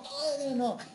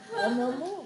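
First: The refusal is said calmly and steadily. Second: The refusal is said in an agitated, explosive way. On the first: The refusal is firm and unshakable without any fuss. The speaker calls it right. "pero reposado" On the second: The refusal comes across as a loud outburst. The speaker calls it wrong. "Y no se dice, ¡ah!"

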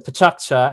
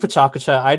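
First: The U after K is barely heard. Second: The U after K is fully voiced. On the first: "with the K bouncing to the next syllable to make an illusion of a U" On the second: "you can say PechaKucha. I don't mind"

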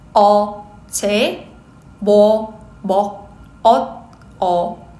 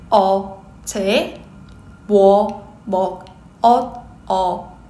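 Both takes have the same delivery.

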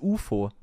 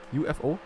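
First: It is said as a single word. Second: It is spelled out letter by letter. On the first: This is how it is said in German. "In German it's U F O" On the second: This is how it is said in English. "like you just say the letters?"

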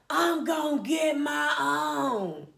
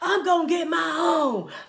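First: It is said very slowly, dragged out. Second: It is said at normal speed.

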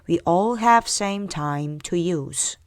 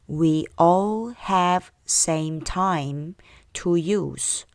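First: The sentence is said faster still. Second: The sentence is said at a normal pace. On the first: "좀 더 빨리요" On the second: "처음부터요"

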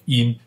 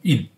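First: The word has a high level tone. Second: The word has a falling fourth tone. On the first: This is the ancient reading. "但是在古代它是读音" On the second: This is the modern reading. "我们现在读四声荫"

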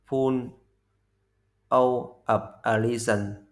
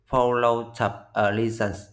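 First: Each word is said separately and fully. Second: The words are said fast and run together. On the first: "Nguyên cái cụm từ là" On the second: "người ta đọc nhanh là"

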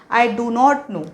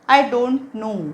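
First: 'Do not' is said as two full words. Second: 'Do not' is contracted to a single syllable. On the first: This is the full written form. "डोंट full form आहे डू नॉट" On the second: This is the casual everyday spoken form. "डू नॉट ऐवजी आपण बोलता बोलता डोंट असं सहज म्हणायचं असतं"

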